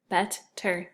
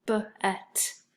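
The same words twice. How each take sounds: First: Said in the usual way. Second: B-et-ter split into separate tapped beats; tapped out in syllables. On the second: Shown as a demonstration. Teacher tapping out syllables for the class. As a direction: tap out B-et-ter slowly. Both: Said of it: "So then we could tap them out".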